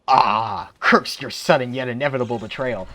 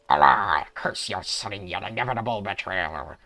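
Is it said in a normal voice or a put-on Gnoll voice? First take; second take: normal voice; Gnoll voice. First: It is said in his normal voice. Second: It is said in a put-on Gnoll voice.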